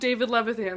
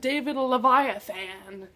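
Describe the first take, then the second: First: The surname is said as Levithan. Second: The surname is said as Leviathan.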